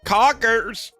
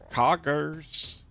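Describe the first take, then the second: First: It is said in a Chuck E. Cheese voice. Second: It is said in his normal voice.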